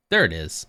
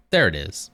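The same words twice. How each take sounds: The two takes are said the same way.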